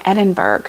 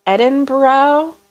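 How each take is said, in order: First: "Edinburgh" as ED-in-berg, falling; "Edinburgh" with a hard G at the end. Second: "Edinburgh" as ED-in-burr-oh, drawn out and rising; slow, unsure "Edinburgh" ending in a rising -boro. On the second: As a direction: say "Edinburgh" with a final OH, questioning. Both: Shown as a demonstration. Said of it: "I don't know how to say it".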